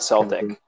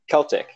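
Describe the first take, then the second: First: The word begins with a soft S sound. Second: The word begins with a hard K sound. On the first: The speaker calls it wrong. "It's not Celtic" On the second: The speaker calls it right. "with the hard C, not the soft C"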